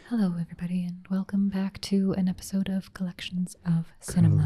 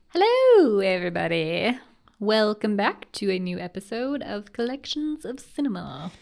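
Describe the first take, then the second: First: It is said in an NPR announcer voice. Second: It is said in a normal voice.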